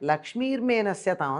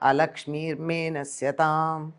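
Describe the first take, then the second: First: The phrase begins directly with 'lakshmir'. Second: The phrase begins with an 'a' sound. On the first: Prosperity should go away. The speaker calls it wrong. "అని చదువుతారు" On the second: Misfortune should go away. The speaker calls it right. "అని ఉంటుంది"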